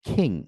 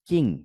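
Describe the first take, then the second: First: The first consonant is an aspirated k. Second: The first consonant is a plain k. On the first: The speaker calls it right. "খেও for খিং" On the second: The speaker calls it wrong. "Q দিয়ে আমরা পড়তাম কি?"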